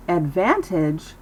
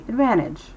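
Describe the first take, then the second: First: "advantage" with a crisp, full T; overpronounced T. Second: "advantage" with no T, like "advannage"; dropped T. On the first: Teacher shows what to avoid, hard T in "advantage". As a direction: sound out the T in "advantage". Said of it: "Instead of saying". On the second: Teacher models American speech, "advantage" without its T. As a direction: let the N swallow the T in "advantage". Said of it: "it keeps its voice down". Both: Shown as a demonstration.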